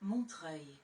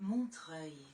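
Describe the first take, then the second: No difference in how they are said.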